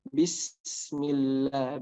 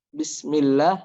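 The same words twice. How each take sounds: First: The s sound is held briefly before moving on. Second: The s sound is cut short quickly. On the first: The speaker calls it right. "Harus ada eh, tadi waktunya dulu ya, mungkin satu detik atau dua detik" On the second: The speaker calls it wrong. "jangan terlalu cepat. Bismillah, nah itu belum sempurna"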